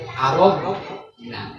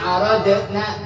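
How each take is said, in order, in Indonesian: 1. Bunyi d-nya berat, bertekanan, dengan bibir membulat. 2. Bunyi d-nya biasa, ringan. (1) "Dot, dot" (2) "jangan dibaca inna aradna, bukan"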